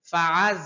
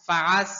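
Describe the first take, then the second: First: ফাআজ ending in a firm, hard ঝা sound; correct pronunciation. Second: ফাআস with a plain s instead of the hard ঝা; the mistaken ফাআস, said with s; wrong pronunciation. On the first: Teacher shows the right hard ঝা sound. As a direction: say ফাআজ with a strong heavy ঝা. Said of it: "ঝা শক্ত হরফ". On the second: Teacher shows the common mistake, plain s sound. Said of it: "সম্পূর্ণ ভুল". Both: Shown as a demonstration.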